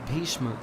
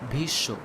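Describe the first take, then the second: First: The full 'shm' consonant cluster is pronounced. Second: The cluster is simplified to a single 'sh' sound. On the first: "Bhishma in Hindi" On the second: "pronounced as Bhisho"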